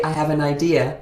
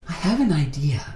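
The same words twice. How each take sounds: First: It is said in a normal voice. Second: It is said in an airy, breathy voice.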